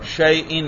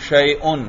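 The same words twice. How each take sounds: First: The ending vowel is i, as in shay'in. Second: The ending vowel is u, as in shay'un. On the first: "میں کیا پڑھ رہا ہوں؟ زیر" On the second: "میں کیا پڑھ رہا ہوں حمزہ پر؟ پیش"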